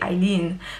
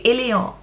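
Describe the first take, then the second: First: The name is said with English vowels. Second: The name is said with French vowels. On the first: The speaker calls it right. "you just say Eileen" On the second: The speaker calls it wrong. "she would say Eléon"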